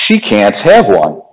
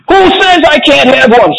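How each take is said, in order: First: Low, slow, measured refusal; Mister Wonka answering. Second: Put-on very high-pitched indignant child; Veruca shouting. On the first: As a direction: lay down a firm, unhurried no. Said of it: "Mister Wonka answered". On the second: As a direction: shriek back in bratty defiance. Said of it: "shouted Veruca". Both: A narrator's reading.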